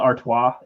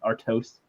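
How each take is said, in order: First: The name is said unlike its spelling. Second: The name is said following its spelling. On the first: "Is that pronounced Stella Artois" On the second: "even though it's spelled Artois"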